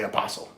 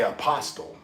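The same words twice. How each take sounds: First: It is pronounced with a Southern accent. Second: It is pronounced the way the spelling suggests. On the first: "just me talking, I say apostle. Because it's a southern thing" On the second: "like the spelling wise, I would say apostle"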